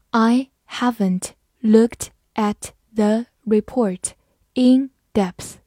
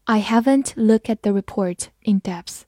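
First: Word by word, evenly spaced pauses; slow read-along. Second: Said in the usual way. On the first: Shown as a demonstration. Teacher leads students through the example, slow read-along. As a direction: read slowly, separating each word. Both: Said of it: "跟我慢读一遍".

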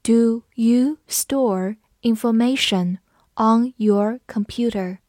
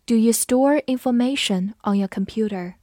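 First: Slow, each word separated; slow teacher model reading. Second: Said in the usual way. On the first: Shown as a demonstration. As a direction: read slowly for students to repeat. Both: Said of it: "跟着我慢读一遍".

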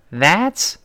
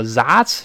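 First: "That's" with a voiced TH, tongue between the teeth. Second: "that's" mispronounced as "zats"; wrong Z-like TH. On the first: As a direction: push the tongue out for the start of "That's". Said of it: "T H一定要吐舌". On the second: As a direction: swap the TH of "that's" for a buzzing z. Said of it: "不要再出现那种that's这种声音". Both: Shown as a demonstration.

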